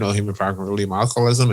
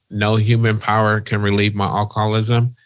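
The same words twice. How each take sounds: First: The phrase is said at a quicker pace. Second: The phrase is said at a slower pace.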